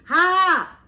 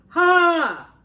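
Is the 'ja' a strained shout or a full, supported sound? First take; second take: strained shout; supported. First: It is a strained shout from the throat. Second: It is a loud, clear, supported sound. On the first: The speaker calls it wrong. "cualquiera de nosotros diría, ¡ja! Gritaría" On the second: The speaker calls it right. "Suena más fuerte, más nítida y no me lastimo"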